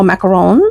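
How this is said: It is said with a French accent.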